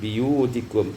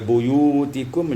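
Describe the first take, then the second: First: The first syllable has the vowel i. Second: The first syllable has the vowel u.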